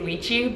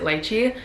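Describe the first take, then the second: First: Pronounced the way many people commonly say it. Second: Pronounced the way people in Hawaii say it. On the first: The speaker calls it wrong. "a lot of people tend to mispronounce and they say lychee" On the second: The speaker calls it right. "in Hawaii we pronounce it lychee"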